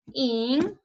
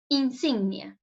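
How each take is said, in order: First: Insignia split into in, sig, nia with long pauses; syllable by syllable. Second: Said in the usual way. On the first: Shown as a demonstration. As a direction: dictate Insignia as three isolated syllables. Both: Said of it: "Separemos insignia".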